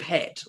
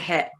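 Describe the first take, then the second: First: The final t sound is clearly pronounced. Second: The final t sound is left off. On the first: The speaker calls it right. "instead of hat" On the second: The speaker calls it wrong. "they're leaving the the ends off, like they're going hat"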